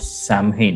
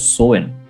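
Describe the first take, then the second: First: The word is said as spelled, with an m. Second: The word is said like sow-in, without an m. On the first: The speaker calls it wrong. "No, wait" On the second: The speaker calls it right. "it's pronounced as Soin"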